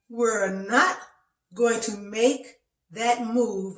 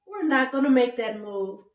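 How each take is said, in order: First: Slow, emphatic refusal, word by word; protesting body's voice. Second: Slightly raised, louder refusal, lightly acted; protesting body's voice. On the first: Retold or imitated. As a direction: spell out the refusal slowly and firmly. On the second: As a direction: lightly voice a body saying no. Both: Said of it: "My body was talking to me".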